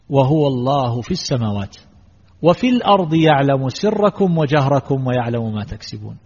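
There is a pause after 'السماوات'. God is above the heavens and knows what happens on earth. "فبعضهم قال هكذا"

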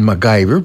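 The name is said with an American English pronunciation. This is how Americans say the name. "se supone que los gringos le dicen MacGyver"

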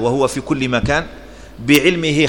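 There is a pause after the word مكان. The presence everywhere is stated alone; knowledge begins a new sentence. The speaker calls it wrong. "فيجعل فاصلة بين كلمتي مكان وبعلمه"

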